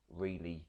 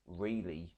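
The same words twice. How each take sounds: The two takes are said the same way.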